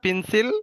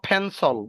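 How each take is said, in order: First: The first p has no puff of air. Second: The first p has a strong puff of air. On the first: The speaker calls it wrong. "এটা কিন্তু পেন্সিল না।" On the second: The speaker calls it right. "উচ্চারণটা হবে, বলো ফেন্সল"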